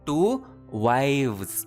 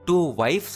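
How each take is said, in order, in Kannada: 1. ಬಹುವಚನ v ಶಬ್ದದಲ್ಲಿ ಮುಗಿಯುತ್ತದೆ. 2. ಬಹುವಚನ f ಶಬ್ದದಲ್ಲಿ ಮುಗಿಯುತ್ತದೆ. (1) "ವೈವ್ಸ್ ವ ಸೌಂಡ್ ಬರಬೇಕು" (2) "ಟೂ ವೈಫ್ಸ್ ಅನ್ಬಾರ್ದು ನೀವು"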